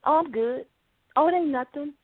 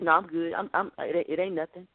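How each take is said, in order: First: Lightly voiced spouse waving off concern; casual mock "I'm fine"; a hint of a wife hiding her mood, breezy; brushing it off. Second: Lower, trailing husband's "I'm good"; a lower, fading denial from the husband; husband brushing it off. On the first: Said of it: "when you're talking to your spouse". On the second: Retold or imitated. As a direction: mumble it away like a sulking husband. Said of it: "He's like".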